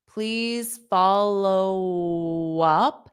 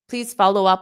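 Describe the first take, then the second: First: The phrase is spoken slowly. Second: The phrase is spoken quickly. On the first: "I'll say it slow" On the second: "I'll say it fast"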